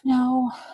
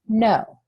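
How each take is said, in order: First: It is said hesitantly and unconvincingly. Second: It is said firmly and convincingly. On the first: The speaker is uncomfortable and not committed to refusing. The speaker calls it wrong. "I don't sound very convincing, do I? I kind of sound like I'm uncomfortable or unsure" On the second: The speaker means the refusal. The speaker calls it right. "do I sound more convincing? ... I'm saying it like I mean it"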